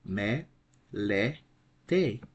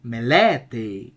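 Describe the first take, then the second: First: "Me, le, te" in three separate pieces; syllable by syllable. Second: "melete" as me-LE-te, middle raised and loud; "melete" peaking on LE, then falling away; accent on middle syllable. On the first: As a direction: break "Me, le, te" apart with short pauses. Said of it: "We have three syllables". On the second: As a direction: punch the LE in "melete". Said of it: "The right pronunciation of this word". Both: Shown as a demonstration.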